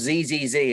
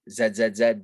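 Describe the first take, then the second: First: The letter is said the American way, 'zee'. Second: The letter is said the British way, 'zed'.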